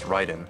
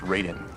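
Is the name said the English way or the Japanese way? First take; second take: Japanese; English. First: The name is said with Japanese sounds. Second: The name is said with English sounds. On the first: The speaker calls it right. "they know it's Raiden" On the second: The speaker calls it wrong. "they think it's Raiden"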